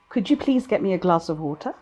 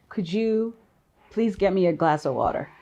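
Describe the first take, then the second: First: It is spoken in a British accent. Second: It is spoken in an American accent. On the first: "both in British" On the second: "in the American accent"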